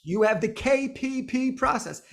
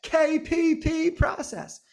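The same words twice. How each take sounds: First: Said in the usual way. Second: "K P P process" slow, each letter K, P, P said apart, pitch higher; spelled out, stressed. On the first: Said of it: "say it like that". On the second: Shown as a demonstration. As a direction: spell out "K P P" slowly and high, then "process". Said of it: "I want you to think about it and say it like that".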